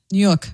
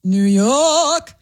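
First: Short, lower New York accent. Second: Drawn-out, heavy New York accent. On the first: Repeating it for the co-host, brief New York accent. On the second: Showing off for the co-host on request, thick New York accent. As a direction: stretch YORK in exaggerated New York style. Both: Shown as a demonstration. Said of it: "Say, uh, New York".

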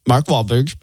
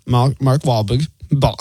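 First: Said in the usual way. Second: Halting, drawn-out stab at a Boston accent; attempted Boston accent. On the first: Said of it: "I'll give you a hint". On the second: Shown as a demonstration. Radio host giving a hint to his co-host, attempted Boston accent. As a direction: fumble "Mark Wahlberg" in a bad Boston accent. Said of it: "can't even do that in the accent".

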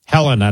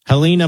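First: Helena stressed up front, HEL-uh-nuh; corrected Helena. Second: Helena with a long ee, he-LEE-na; mispronounced Helena. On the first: Shown as a demonstration. Host corrects the town's name, Helena said HEL-uh-nuh. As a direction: hit the first syllable of Helena, short e. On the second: Real, not acted. Host introduces a caller's town, Helena said he-LEE-na. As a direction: stress the middle of Helena, like LEE. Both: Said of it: "Helena, not Hel".

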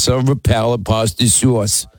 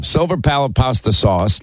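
First: Mild New York vowels on silver palate pasta sauce; a light New York take on silver palate pasta sauce; lightly imitated New York accent. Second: Said in the usual way. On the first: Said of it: "so New York". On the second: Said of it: "Linda says silver palate pasta sauce".

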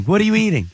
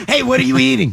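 First: Said in the usual way. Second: Laughing question, a touch louder. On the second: Real, not acted. Host laughs at caller eating.

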